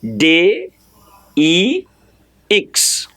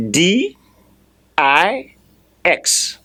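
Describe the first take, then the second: First: "D E X" spelled as day, ee, eeks; French letter names. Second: "D I X" spelled as dee, eye, ex; English letter names. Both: Shown as a demonstration. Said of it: "And in French, it's spelled".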